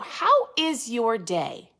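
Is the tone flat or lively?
lively. It is said with lively enthusiasm.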